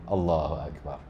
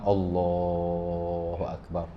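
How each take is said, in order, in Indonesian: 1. Vokal dalam Allah hanya dibaca sebentar. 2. Vokal dalam Allah dipanjangkan. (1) "Allah tu dua harakat je"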